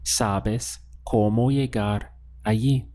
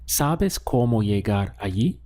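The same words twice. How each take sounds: First: "Sabes cómo llegar allí" spaced word by word, as a fact; statement intonation. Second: "Sabes cómo llegar allí" run together, rising on allí; question intonation. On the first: Spanish teacher models the answer for learners, statement intonation. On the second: Spanish teacher gives learners the answer, question intonation. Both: Shown as a demonstration. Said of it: "Now, let's ask the question".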